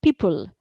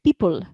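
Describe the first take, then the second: No difference in how they are said.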